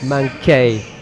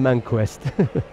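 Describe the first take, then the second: First: The name ends in a plain 'kee' sound. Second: The name ends in a 'kest' sound. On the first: The speaker calls it right. "his French pronunciation" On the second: The speaker calls it wrong. "I called him Manquest"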